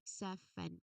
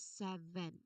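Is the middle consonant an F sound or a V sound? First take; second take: F sound; V sound. First: The middle consonant is a voiceless F sound. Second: The middle consonant is a voiced V sound. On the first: The speaker calls it wrong. "Otherwise the word will sound like seven. We don't want that" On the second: The speaker calls it right. "your voice really needs to remain fully engaged as well as vibrating"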